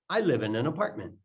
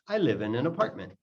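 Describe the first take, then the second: No difference in how they are said.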